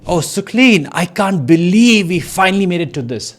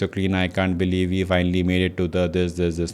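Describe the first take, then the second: First: It is read with lively, excited emotion. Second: It is read flatly, without excitement. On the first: The speaker calls it right. "say excitedly" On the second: The speaker calls it wrong. "not like"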